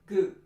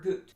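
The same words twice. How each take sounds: First: The vowel is lax rather than tense. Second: The vowel is cut short. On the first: "That's not tense enough" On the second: "That's not long enough"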